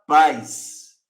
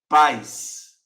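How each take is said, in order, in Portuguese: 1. A palavra termina com som de S. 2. A palavra termina com som de S.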